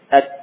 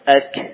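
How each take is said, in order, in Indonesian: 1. K di akhir berhenti mendadak tanpa napas sama sekali. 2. K di akhir diakhiri dengan hembusan napas yang terdengar. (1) "Bila kita tidak memberikan sifat hamas pada kaf dan ta" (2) "Coba kita beri hamas"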